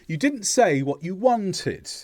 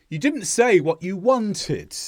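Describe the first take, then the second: First: The pitch falls on the final syllable. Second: The same.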